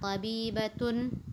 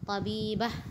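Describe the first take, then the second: First: The word ends with a full 'atun' ending. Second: The word ends with a short 'ah' sound. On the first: The word is read with its vowel ending, not at a stop. "kita bunyikan harakatnya" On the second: The word is read at a stop. "kalau kita berhenti di situ, maka dia bunyinya menjadi ha"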